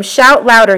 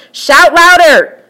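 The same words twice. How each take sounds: First: Said in the usual way. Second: Slow, high, loud mocking call; raised, slowed taunt. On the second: A narrator's reading. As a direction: jeer at them like a bully. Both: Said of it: "Elijah began to taunt them".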